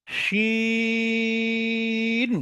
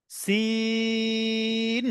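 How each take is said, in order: First: শিন held very long with a broad শ; drawn-out shin. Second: সিন held very long with a thin hissing স; drawn-out sin. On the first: Teacher contrasting শিন with সিন for students. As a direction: stretch শিন slowly, hush the শ. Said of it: "দ্বিতীয়টা শিন". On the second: Teacher drawing out সিন for students. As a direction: stretch সিন slowly, keep the স thin. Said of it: "পাতলা করে যে সাউন্ডটা হবে". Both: Shown as a demonstration.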